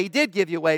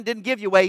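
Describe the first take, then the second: First: "did" stressed, lower and firm; "did" weighted and set against "didn't". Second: Said in the usual way. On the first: Shown as a demonstration. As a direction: lean hard on "did" to correct.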